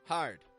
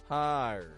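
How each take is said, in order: First: The vowel is clipped short. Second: The vowel is stretched out long. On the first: The speaker calls it wrong. "I don't just give it a short" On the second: The speaker calls it right. "I'm stretching out the vowel sound crystal clearly"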